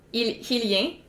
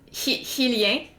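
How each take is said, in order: First: The word is said with a French pronunciation. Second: The word is said with a French pronunciation.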